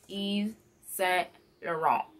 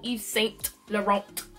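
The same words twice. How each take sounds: First: The final T of Laurent is cut off. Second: The final T of Laurent is sounded. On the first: The speaker calls it right. "you gotta cut it short" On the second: The speaker calls it wrong. "no T, no"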